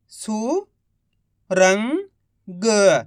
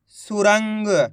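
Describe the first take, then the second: First: Each syllable drawn out very slowly; slow syllable-by-syllable reading. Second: Said in the usual way. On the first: Shown as a demonstration. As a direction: sound out सुरंग slowly as सु-रं-ग, one sound at a time. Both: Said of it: "एक एक अक्षर का उच्चारण करके".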